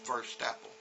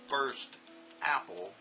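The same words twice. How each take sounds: First: The T runs straight into the next word. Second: The words are said slowly and kept apart. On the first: The speaker calls it right. "we are linking them... that's how we do it" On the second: The speaker calls it wrong. "when I say it slow, is not how we say it in conversation"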